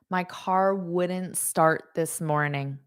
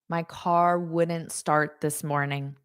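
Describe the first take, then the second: No difference in how they are said.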